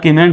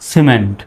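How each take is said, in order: First: The word begins with a hard K sound. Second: The word begins with a soft S sound. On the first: The speaker calls it wrong. "এখন আর কিমেন্ট বলা যাবে না" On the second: The speaker calls it right. "সির উচ্চারণ কিসের মতো? ফার মতো হবে।"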